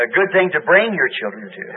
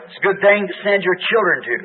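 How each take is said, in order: First: "bring" stressed, the rest of the line lighter. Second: Said in the usual way. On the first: Shown as a demonstration. Preacher correcting himself to the congregation, "bring" stressed. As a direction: put the weight on "bring" as the corrected word. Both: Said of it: "let me correct that".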